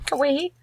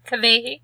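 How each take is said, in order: First: The middle consonant sounds like a W. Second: The middle consonant sounds like a V. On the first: The speaker calls it wrong. "Is that how we pronounce her name?" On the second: The speaker calls it right. "Remember the W's are pronounced like"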